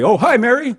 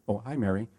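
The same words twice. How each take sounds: First: Much higher and louder, overexcited; loud mismatched greeting. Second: Quiet and gentle, matching her volume; soft matching reply. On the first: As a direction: blast the greeting back, pitched way up. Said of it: "such a drastic difference". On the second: Greeting a soft-spoken Mary at her low volume. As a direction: softly echo her name back. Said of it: "volume level and tonality". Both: Shown as a demonstration.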